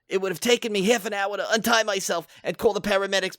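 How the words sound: It is read in a put-on impression voice. "I used to do Joan Rivers a lot"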